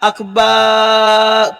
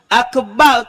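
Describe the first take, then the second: First: The second vowel is drawn out long. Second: The second vowel is short. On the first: The meaning changes to something else. The speaker calls it wrong. "kalau kita kata akbar tu makna tu tukar" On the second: It means the greatest. The speaker calls it right. "Akbar tu makna maha besar"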